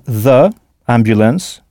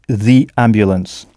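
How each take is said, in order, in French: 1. 'The' se dit avec une voyelle 'uh' courte. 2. 'The' se dit avec une voyelle 'ee' longue. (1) "ça n'est pas très joli à entendre" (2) "donc on prononce the ambulance"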